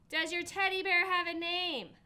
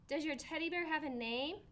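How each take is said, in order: First: Louder and higher, repeating the question; raised voice for a friend who didn't hear. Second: Said in the usual way. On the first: Acted. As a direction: say it again so he hears. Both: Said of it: "I said louder".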